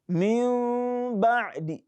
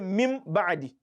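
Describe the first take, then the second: First: The m is held, with a nasal hum. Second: The m is short, with no nasal hum. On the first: The speaker calls it right. "take your time a bit on the mim before you transit to the ba" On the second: The speaker calls it wrong. "there is no gunna there"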